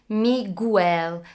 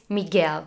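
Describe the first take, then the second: First: A 'w' sound follows the g. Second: The g runs straight into the vowel e. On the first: The speaker calls it wrong. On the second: The speaker calls it right.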